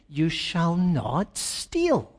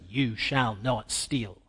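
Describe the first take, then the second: First: It sounds like a warm, reassuring promise. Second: It sounds like a stern, forceful order. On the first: The hearer will no longer steal. "but as a promise" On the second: Stealing is forbidden to the hearer. "not as a command"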